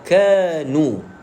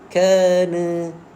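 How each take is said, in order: First: The final vowel is a rounded u sound. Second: The final vowel sounds like an open a. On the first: The speaker calls it right. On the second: The speaker calls it wrong.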